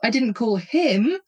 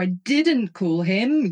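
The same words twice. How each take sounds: First: The stress is on the word 'him'. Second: The stress is on the word 'I'. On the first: The speaker called someone else instead. "like I called somebody else" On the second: Someone else called him instead. "you called him"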